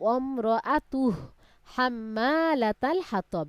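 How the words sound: It stops after the first word, which is shortened. The reciter cannot finish the verse in one breath. "অমরাতুহ বলে এখানে থামবেন"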